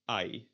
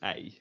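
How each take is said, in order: First: The vowel is a German-style ai sound. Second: The vowel is a Dutch-style ei sound. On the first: It marks a German accent in Dutch. The speaker calls it wrong. "in German you would pronounce the E Y as I" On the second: It is the standard Dutch pronunciation. The speaker calls it right. "pronouncing it as I, because that is the proper pronunciation"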